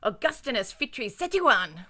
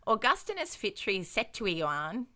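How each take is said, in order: First: The name is said in an angry tone. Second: The name is said in a calm, plain tone. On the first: The speaker calls it right. "your advice is to say it angrily" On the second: The speaker calls it wrong. "is not how you say this guy's name"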